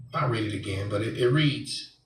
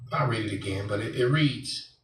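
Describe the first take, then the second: No difference in how they are said.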